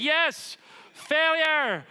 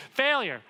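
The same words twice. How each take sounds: First: Much higher and louder, a hammed-up cheer; mock American shout. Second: Said in the usual way. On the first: Mocking Americans cheering the word failure, hammed-up shout. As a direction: belt it like a proud crowd. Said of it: "What Americans do loudly". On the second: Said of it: "Okay, great".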